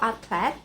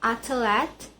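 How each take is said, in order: First: The TH and L are said together. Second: An extra vowel separates the TH and L.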